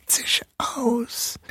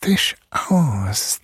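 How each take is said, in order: First: High, much softer whispered hiss; whispering mouse king rising. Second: Whispered hiss of a monster; whispering mouse king. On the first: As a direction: rise into a shrill hissing whisper. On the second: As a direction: hiss it threateningly. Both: A narrator's reading. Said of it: "zischte er".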